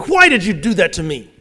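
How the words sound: It sounds disrespectful and accusing.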